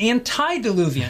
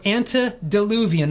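First: The first part sounds like 'anti'. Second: The first part sounds like 'ante'. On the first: It means against the flood. The speaker calls it wrong. "not antediluvian" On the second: It means before the flood. The speaker calls it right. "remember it's ante, or antediluvian"

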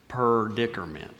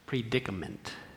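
First: The word begins with the sound 'per'. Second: The word begins with the sound 'pre'.

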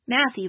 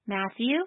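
First: The list is recited at a quicker pace. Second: The list is recited at a moderate pace.

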